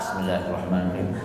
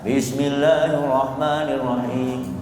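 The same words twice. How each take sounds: First: The phrase is recited softly and quietly. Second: The phrase is recited loudly and clearly. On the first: The mosque board does not want it read aloud. "Kalau kata D K M enggak" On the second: The mosque board wants it read aloud. "udah di sini dikeraskan bismillahnya"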